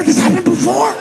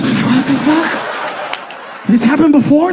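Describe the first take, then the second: First: Even higher, shriller repeat; rising panic. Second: High, loud alarmed ask; panicked question. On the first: Scared kid asks again, higher in rising panic. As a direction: push the panic up a notch. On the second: Scared kid asks his siblings, high and loud. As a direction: blurt it out in alarm. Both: Retold or imitated.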